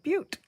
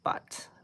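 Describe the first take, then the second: First: It is said like the word butte. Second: It is said like the word butt. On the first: The speaker calls it right. "It's actually pronounced like butte" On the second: The speaker calls it wrong. "who wouldn't pronounce this? Butt"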